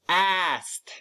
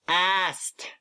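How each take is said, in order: No difference in how they are said.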